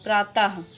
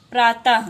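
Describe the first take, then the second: First: प्रातः ending in a breathy ह, प्रातह; visarga ha sounded. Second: Said in the usual way. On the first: Shown as a demonstration. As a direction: let a clear ह follow ता in प्रातः. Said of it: "ता के बाद हा". (प्रातः के अंत में साफ़ ह की ध्वनि) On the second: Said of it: "तो हम लोग क्या पढ़ते हैं?".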